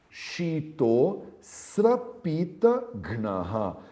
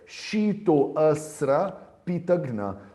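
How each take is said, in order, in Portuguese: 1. A vogal 'a' depois de 'shito' é omitida. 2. A vogal 'a' depois de 'shito' é pronunciada. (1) "Eu não leio o Avagraha, mas eu sei que tem um A ali dentro" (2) "ele não quer que eu leia Shito Asra Pitagna"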